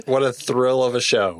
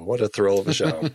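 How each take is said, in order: First: Said in the usual way. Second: Laughing through the words. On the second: Real, not acted. Friend repeats the quip about the show, laughing. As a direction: let a laugh break through the line.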